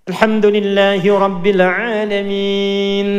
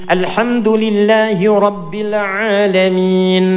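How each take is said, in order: The two takes are said the same way.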